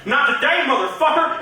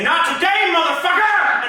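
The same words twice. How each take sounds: First: Angry redneck. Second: High, loud defiant shout. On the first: Retold or imitated. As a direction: belt it like a redneck picking a fight. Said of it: "he goes". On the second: Shown as a demonstration. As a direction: yell it right in life's face.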